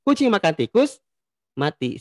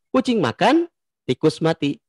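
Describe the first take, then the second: First: There is a pause right after the word tikus. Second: There is a pause right after the word makan. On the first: The cat ate the mouse and then died. "komanya itu di kata tikus" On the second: A cat eats and, separately, a mouse is dead. "di kata makan"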